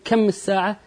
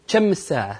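First: The first word begins with a k sound. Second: The first word begins with a ch sound. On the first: "بدل لا تقول مثلا" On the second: "نقول"

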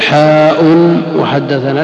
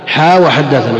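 First: The first vowel is long and drawn out. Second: The first vowel is short, without lengthening. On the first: The speaker calls it wrong. "لا تقول حاء وحدثنا" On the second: The speaker calls it right. "من غير مد"

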